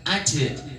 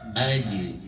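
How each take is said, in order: First: The final vowel is an 'e' sound. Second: The final vowel is a rounded 'u' sound. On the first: The speaker calls it wrong. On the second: The speaker calls it right.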